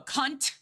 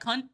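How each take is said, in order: First: The final T is strongly emphasized. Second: The final T is soft and unemphasized. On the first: It is meant as an insult. "If you emphasize on the T, it's a bad thing" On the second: It is not meant as an insult.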